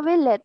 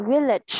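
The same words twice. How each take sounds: First: "village" cut short on a t, no ch; wrong dropped ending. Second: "Village" with a clear ch at the end; sounded final consonant. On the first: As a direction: say "village" like "vi-let", final ch missing. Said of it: "Không có village". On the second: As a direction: model "Village", releasing the final ch. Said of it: "Nhớ âm cuối nha". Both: Shown as a demonstration.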